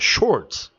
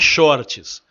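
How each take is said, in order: First: The word is said with an English-style pronunciation. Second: The word is said with a Portuguese-style pronunciation. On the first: The speaker calls it right. "é shorts" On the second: The speaker calls it wrong. "Não é shorts"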